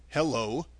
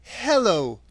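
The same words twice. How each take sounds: First: Calm, understated greeting; reply calmly and evenly; mild, unruffled hello; Tin Woodman. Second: Put-on higher girl's voice, reciting a magic word; deliberate spell word, pitched up; Dorothy. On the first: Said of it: "replied the Tin Woodman calmly". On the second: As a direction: chant it higher, falling away at the end. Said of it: "Dorothy went on". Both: A narrator's reading.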